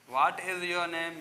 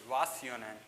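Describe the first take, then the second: First: Every word is said fully in standard English. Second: It is reduced and run together, American style.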